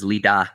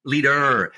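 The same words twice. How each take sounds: First: "leader" ending in an open "ah", R dropped. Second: "Leader" with a strong, drawn-out R at the end; emphasized R. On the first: Explaining the web address spelling in his accent, "leader" with R dropped. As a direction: say "leader" with an A sound for the last syllable. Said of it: "sounds like with an A". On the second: Guest spelling out his web address, "Leader" with emphasized R. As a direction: lean hard on the final R of "Leader", pitched higher. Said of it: "I've emphasized the R". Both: Shown as a demonstration.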